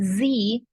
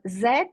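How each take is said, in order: First: The letter is said as 'zee'. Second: The letter is said as 'zed'. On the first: "Z in American English" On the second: "Z is more frequently used in British English"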